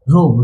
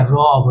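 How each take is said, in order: First: "रोब" with a full ओ vowel; long-o pronunciation. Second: "रॉब" with a short open o; short-o pronunciation. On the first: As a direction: say "रोब" with o as its letter name, silent e. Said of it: "नागिन का असली रूप दिखाएंगे". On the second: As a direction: say "रॉब" with the vowel as अ, not ओ. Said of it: "ओ का उच्चारण अ से". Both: Shown as a demonstration.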